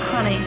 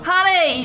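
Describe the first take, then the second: First: It is said hesitantly, without confidence. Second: It is said loudly and confidently.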